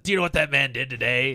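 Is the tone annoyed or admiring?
annoyed. It sounds annoyed and accusing.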